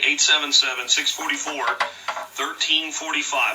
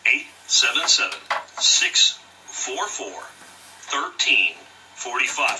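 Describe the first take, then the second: First: The number is read at normal speed. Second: The number is read more slowly.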